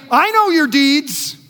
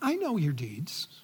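First: It sounds warm and reassuring. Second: It sounds ominous and threatening.

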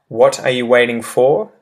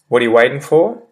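First: Each word is said fully and separately. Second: The words run together in a shortened form. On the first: "using the well-enunciated example first" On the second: "how it changes in pronunciation afterwards"

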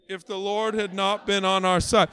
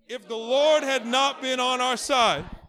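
First: It is said flatly, with little energy. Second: It is said with more energy and force. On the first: The speaker calls it wrong. "it felt like we didn't have much energy in it" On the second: The speaker calls it right. "with a little more energy"

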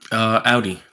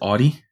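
First: The first syllable rhymes with 'cloud'. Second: The first syllable does not rhyme with 'cloud'. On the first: The speaker calls it right. "it says Audi is pronounced like cloudy" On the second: The speaker calls it wrong. "too many people pronounce it Audi"

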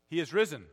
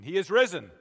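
First: It is said in a plain, quieter voice. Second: It is said loudly and forcefully.

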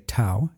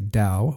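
First: The word begins with a T sound. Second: The word begins with a D sound. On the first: "whereas I say Tao when I use the word in isolation" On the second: "Many of my guests are going to say Dao"

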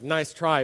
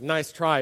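First: The tone is sarcastic and mocking. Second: The same.

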